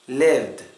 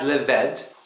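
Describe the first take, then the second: First: The ending is a plain d, one syllable. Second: The ending is an extra syllable with a vowel. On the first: The speaker calls it right. "you have to pronounce this ed sound as d" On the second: The speaker calls it wrong. "very important not to pronounce this as lived"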